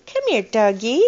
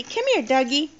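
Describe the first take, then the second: First: Put-on louder sing-song model phrase for a toddler; reading to a toddler. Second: Put-on high sing-song model phrase for a toddler; reading to a toddler. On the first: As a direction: call it out for the child to copy. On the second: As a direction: say it sweetly for the child to copy. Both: Shown as a demonstration.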